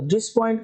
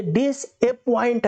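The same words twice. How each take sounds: First: "डिसपॉइंट" run as dis-point, middle vowel dropped; wrong split pronunciation. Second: "डिसअपॉइंट" slowly split as dis-a-point, the "a" sounded; correct pronunciation. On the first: Teacher shows students the wrong dis plus point, vowel-dropped pronunciation. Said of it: "wrong". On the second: Teacher separates it from dis-point for students, slow split pronunciation. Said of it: "ए पॉइंट". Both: Shown as a demonstration.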